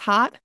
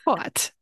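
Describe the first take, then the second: First: The name is said plainly, like hot. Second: The name is said with a posh vowel. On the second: "Very posh"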